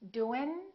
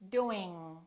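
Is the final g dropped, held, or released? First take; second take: dropped; held. First: The final g sound is dropped entirely. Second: The final g sound is held, not released. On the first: The speaker calls it wrong. "The first two are not correct" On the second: The speaker calls it right. "The last way is the correct accent"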